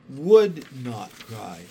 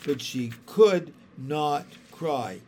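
First: Would stressed, louder and slow. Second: Could stressed, slow and firm. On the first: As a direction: punch the word would, firm and slow. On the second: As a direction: lean on the word could, slowly. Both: A narrator's reading. Narrator stresses could, then would.

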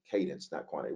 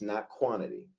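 First: Cadence, not quantity said low and soft, Cadence leaned on; quiet restatement. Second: Said in the usual way. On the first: Shown as a demonstration. Pastor drives the point home to the church, low and soft. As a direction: drop the voice and let "Cadence" land. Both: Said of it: "so it is about cadence".

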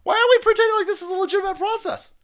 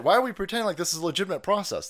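First: High fast yell of disbelief; outraged shout. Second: Said in the usual way. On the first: Real, not acted. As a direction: fire the question out, loud and high. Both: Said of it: "repeats the line louder".

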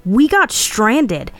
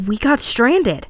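First: Slow, higher, emphatic yell; insistent narrated yell. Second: Slow and high, losing conviction; unsure insistence, pitched up; trailing off, falsely confident. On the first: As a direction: drag the words out in protest, voice raised. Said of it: "I yelled". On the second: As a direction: draw it out as if convincing yourself. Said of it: "I trailed off in false confidence". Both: A narrator's reading.

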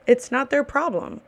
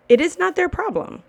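First: Said in the usual way. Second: Their pitched high and hit hard; stress on their. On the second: Real, not acted. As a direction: lean into their. Stressing point to servers.

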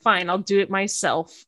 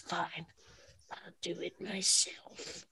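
First: Said in the usual way. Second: Slow, hushed villain impression; Thanos. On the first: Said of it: "because Mikasa didn't do it". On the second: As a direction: whisper it slowly and very softly, like a menacing movie villain. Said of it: "Like, very Thanos".

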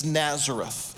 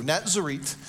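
First: Said in the usual way. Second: "Nazareth" said with ts in the middle; "Nazareth" as NAT-zeh-reet; Hebrew pronunciation. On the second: Shown as a demonstration. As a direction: end "Nazareth" on a hard t, as Natzeret. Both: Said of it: "That's Nazareth in the Hebrew".

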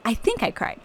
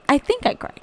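First: Said in the usual way. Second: Higher, put-on weepy squeak; mock crying voice. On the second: Telling listeners about the verse, mock tearful. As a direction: pretend to cry the words out.

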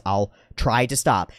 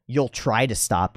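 First: Said in the usual way. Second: Slow mocking echo; drawn-out sarcastic doubt; scoffing, dismissive. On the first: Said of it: "being very careful with my words". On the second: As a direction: repeat it back in imitated disbelief. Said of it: "it got scoffed at and dismissed".

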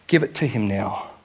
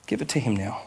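First: Said in the usual way. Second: "Give it to him now." repeated much softer. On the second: Shown as a demonstration. Pastor repeating his plea to the congregation, softly. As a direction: say "Give it to him now." again, quietly and intimately.

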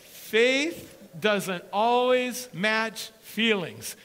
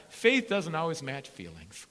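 First: Each word drawn out and loud; slow and deliberate. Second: Said in the usual way. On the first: Shown as a demonstration. Preacher spelling it out to the church, slow and loud. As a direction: press every word of Faith doesn't always match feelings slowly. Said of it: "Let me make this clear". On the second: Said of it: "turn the person next to you and just say".

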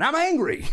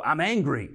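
First: High, loud cry, half laughing; hammed-up shout of anger; angry outburst. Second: Said in the usual way. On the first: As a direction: blurt it out loud and high to God. Crying out anger to God.

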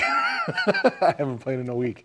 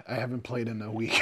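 First: Slow repeat broken up by real laughter; laughing. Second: Said in the usual way. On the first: Real, not acted. Admitting a week without playing, laughing. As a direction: laugh through the words, higher and drawn out.

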